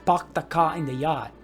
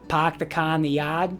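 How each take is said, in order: First: The R-less vowels resonate lower in the mouth. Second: The R-less vowels resonate high, near the nose. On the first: "Hawaii, we almost sound the same, but we bring them down here" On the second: "Boston style would say"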